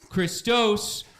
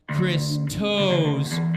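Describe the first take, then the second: First: It is said as one smooth word. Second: It is said as two separate words. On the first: "one word" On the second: "two words"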